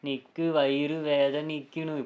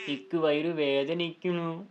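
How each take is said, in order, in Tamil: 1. இது தட்டையாகச் சொல்லப்படுகிறது, படித்துக் காட்டுவது போல. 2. இது உயிரோட்டமான, மாறுபட்ட ஏற்ற இறக்கத்துடன் சொல்லப்படுகிறது. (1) "இப்படி சொன்னீங்கன்னா இந்த புக்கை படிச்சுட்டே சொன்னீங்கன்னு கண்டுபிடிச்சிருவாங்க" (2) "நம்ம மாடுலேஷன் கொஞ்சம் மாற்றணும்"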